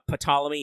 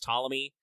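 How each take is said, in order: First: The word begins with an audible P sound. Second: The word begins with a T sound, no P. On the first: The speaker calls it wrong. "It is not Ptolemy" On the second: The speaker calls it right. "the P is actually totally silent"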